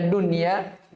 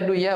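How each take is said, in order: First: The n is pronounced clearly before the y. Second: The n merges into the following y sound. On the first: The speaker calls it right. "bacanya dunia" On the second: The speaker calls it wrong. "Tapi kenapa tidak dibaca duya"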